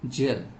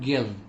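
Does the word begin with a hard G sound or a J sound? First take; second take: J sound; hard G. First: It begins with a J sound. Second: It begins with a hard G sound. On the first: The speaker calls it right. "then time we have to pronounce it as J, not G" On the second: The speaker calls it wrong. "Not gel"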